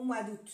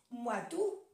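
First: "d'août" ending in a sounded T; T pronounced. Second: "d'août" ending on an open "oo"; silent T. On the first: Teacher contrasting the two options, "d'août" with T. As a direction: say "d'août" as "doot". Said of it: "o se pronuncia la T". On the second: Teacher contrasting the two options, "d'août" without T. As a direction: say "d'août" as "doo", T dropped. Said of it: "O se dice U". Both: Shown as a demonstration.

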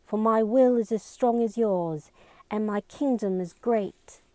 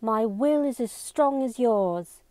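First: Higher, determined heroine delivering her speech; reciting with resolve. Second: Higher, forceful declaration; intense. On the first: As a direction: declaim it, raised in pitch. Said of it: "She bit her lip and continued". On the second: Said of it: "spoke with even more intensity now". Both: A narrator's reading.

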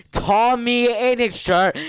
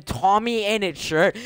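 First: "Tommy Innit shirt" drawn out slow, high and loud; emphatic repeat. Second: Said in the usual way. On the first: Real, not acted. Streamer mocking friend's outfit, "Tommy Innit shirt" slow and emphatic. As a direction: stretch each word of "Tommy Innit shirt" in disbelief.

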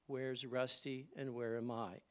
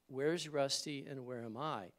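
No difference in how they are said.

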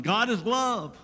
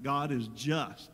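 First: God is love, lifted high and loud as a slogan; proclaimed slogan. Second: God is just, slow and lower with weight on just; solemn correction. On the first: Retold or imitated. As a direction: sing out love as a popular motto. Mocking shallow slogan. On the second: Shown as a demonstration. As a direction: lay it down slowly and gravely as a correction. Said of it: "Wait a minute".

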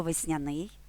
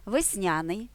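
First: Весняний with the stress on НИЙ: весняНИЙ; stress on last syllable. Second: Весняний with the stress on НЯ: весНЯний; stress on second syllable. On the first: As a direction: push the stress to the end of весняний. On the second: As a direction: lean on the middle syllable of весняний. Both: Shown as a demonstration. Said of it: "тут подвійний наголос".

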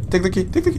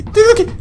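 First: Said in the usual way. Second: High, loud frantic yell; panicked shout. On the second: Real, not acted. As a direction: yell it as the danger closes in. Grabbing key under threat.

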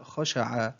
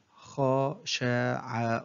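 First: Said in the usual way. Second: Very slow, each syllable drawn out separately; broken into syllables. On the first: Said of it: "تقطع الكلمة". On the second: Shown as a demonstration. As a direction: sound out the word syllable by syllable. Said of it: "تقطع الكلمة إلى حروف". (تقطيع الكلمة ببطء شديد مقطعًا مقطعًا)

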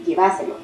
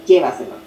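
First: "Lleváselo" stressed on the second syllable, VA. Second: "llévaselo" hit on the first syllable, LLE, then falling low; stress on LLE. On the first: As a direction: say "Lleváselo" as lle-VA-se-lo. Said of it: "el énfasis sería en". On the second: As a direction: say "llévaselo" as LLE-va-se-lo, dropping in pitch. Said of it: "la tilde no sería en lle". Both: Shown as a demonstration.

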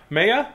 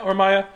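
First: "Maya" said MAY-uh; "Maya" as MAY-uh, rising questioningly; alternative pronunciation. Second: "Maya" said MY-uh; "Maya" with a first syllable like "my"; alternative pronunciation. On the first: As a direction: query "Maya" with a long A, as MAY-uh. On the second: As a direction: say "Maya" to rhyme with papaya. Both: Shown as a demonstration.

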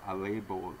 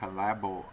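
First: "label" with an "ay" first vowel; long-a correction. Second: "label" with a short a, as in "lab"; short-a mispronunciation. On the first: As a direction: say "label" as "LAY-bul". Second take corrects the vowel. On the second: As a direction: say "label" to rhyme with "babble". First take, then corrects vowel. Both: Real, not acted.

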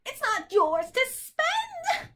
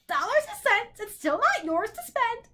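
First: Very high, drawn-out screech; shrieking bird. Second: High, haughty bird voice. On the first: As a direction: shriek it slowly like a cranky bird. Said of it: "the bird shrieked again". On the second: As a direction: squawk it with disdain. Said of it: "the bird replied haughtily". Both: A narrator's reading.

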